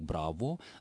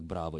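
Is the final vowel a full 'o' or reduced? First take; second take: full; reduced. First: The final vowel is a clearly articulated o. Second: The final vowel is reduced, not a clear o.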